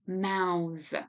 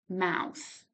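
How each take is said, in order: First: The final th is voiced, with throat vibration. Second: The final th is voiceless, without throat vibration. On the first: It is a verb meaning to form words silently. "now here you can feel the vibration in your throat" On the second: It is the noun for the body part. "there is no vibration here"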